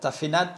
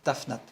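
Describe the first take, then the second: First: An e-like vowel is heard between f and n. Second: No vowel is heard between f and n. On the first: The speaker calls it wrong. "il n'y a pas de tafenat" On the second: The speaker calls it right. "Il n'y a, a pas de E, c'est tafnat"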